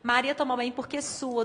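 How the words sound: The pause comes after the word 'sua'. Maria sweats, and the mother is being addressed. The speaker calls it right. "do verbo suar"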